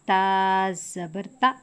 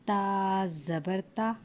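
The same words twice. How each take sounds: First: The final vowel is cut off abruptly. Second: The final vowel has moderate, natural length. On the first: The speaker calls it wrong. "झटका करके पढ़ने से हुर्फ तब्दील हो जाएगा। जैसे" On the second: The speaker calls it right. "बेहतर तरीका है"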